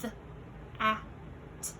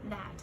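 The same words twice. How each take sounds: First: "The, a, t" as three separate short phonemes; a pause after each sound of "The, a, t". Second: Said in the usual way. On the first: Shown as a demonstration. Teacher counting sounds in a word, "The, a, t" segmented. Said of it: "how many sounds do you hear in that".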